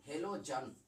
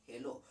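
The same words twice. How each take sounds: First: Said in the usual way. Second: Affectionate short name. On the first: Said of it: "halogen को ना प्यार से कहा जाता है". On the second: Shown as a demonstration. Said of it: "halogen को प्यार से क्या कहा जाता है".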